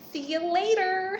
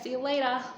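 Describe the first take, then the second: First: It is said in an American accent. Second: It is said in an Australian accent. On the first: A foreigner says it. "my very American voice will pop up pronouncing my R's" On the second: Locals say it. "everyone will be"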